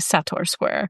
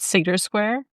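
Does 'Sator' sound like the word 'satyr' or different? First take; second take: different; like satyr. First: The first word does not sound like 'satyr'. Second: The first word sounds like 'satyr'. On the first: The speaker calls it right. "I'm gonna try and train myself to say" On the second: The speaker calls it wrong. "for the longest time I've been pronouncing it"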